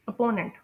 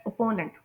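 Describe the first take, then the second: No difference in how they are said.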